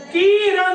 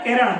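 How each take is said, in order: First: किरण drawn out as "keeran"; wrong long vowel. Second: किरण with a short, quick i; corrected किरण, first vowel clipped short. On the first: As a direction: stretch the first vowel of किरण into ee. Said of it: "नहीं है वो". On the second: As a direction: say किरण briefly, no long ee. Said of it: "छोटी ई की मात्रा लगी हुई है". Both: Shown as a demonstration.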